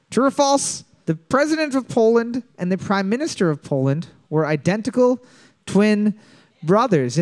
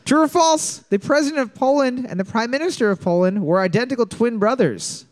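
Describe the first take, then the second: First: Repeated slowly with pauses before twin and brothers. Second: High, clear quiz-host reading. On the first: Host repeating the question for the teams, slower. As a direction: let "twin" and "brothers" land after pauses. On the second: Host reading the question to the teams, clear quiz voice. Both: Shown as a demonstration. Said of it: "Question number four".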